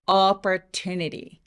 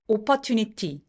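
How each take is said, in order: First: One syllable is long, loud and resonant. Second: All syllables get roughly equal weight. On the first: The speaker calls it right. "빨간 부분 길게" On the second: The speaker calls it wrong. "소리의 분배가 굉장히 공평하죠"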